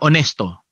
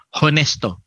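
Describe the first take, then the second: First: The word starts with no H sound. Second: The word starts with an audible H sound. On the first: "silent H" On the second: "pagka ipropronounce yung H"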